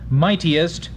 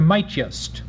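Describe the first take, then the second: First: The word is said with three full syllables. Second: The word is reduced to two syllables. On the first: The speaker calls it wrong. "a hypermetrical trisyllabic pronunciation" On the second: The speaker calls it right. "reduced to mightiest"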